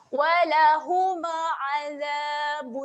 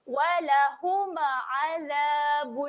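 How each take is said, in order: Both takes have the same delivery.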